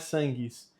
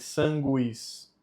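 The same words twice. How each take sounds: First: The u after the g is silent. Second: The u after the g is pronounced. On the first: The speaker calls it wrong. "não é sanguis" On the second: The speaker calls it right. "esse U ele precisa ser dito"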